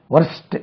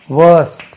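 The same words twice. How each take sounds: First: "வொர்ஸ்ட்" short, with the r sounded; readers' mispronunciation. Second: "வேர்ஸ்ட்" loud, long vowel and silent r; careful model pronunciation. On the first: Retold or imitated. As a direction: imitate a mistaken "வொர்ஸ்ட்", r before st. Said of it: "வொர்ஸ்ட் இல்ல இது". ("வொர்ஸ்ட்" என ர் ஒலியுடன் தவறாக) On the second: Shown as a demonstration. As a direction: stretch "வேர்ஸ்ட்" without an r before st. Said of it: "இதுக்கு உச்சரிப்பை கவனிக்கணும்". ("வேர்ஸ்ட்" என்பதில் ர் ஒலிக்காமல் நீண்ட உயிரொலி)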